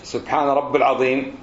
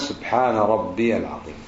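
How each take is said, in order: First: Rabb runs straight into al-azeem without a long ee. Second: A long ee vowel is heard after rabb. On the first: Praise the Lord of someone who is great. The speaker calls it wrong. "فهو ليس إيش سبحان رب العظيم" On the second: Praise my Lord, the Great. The speaker calls it right. "وإنما سبحان ربي العظيم"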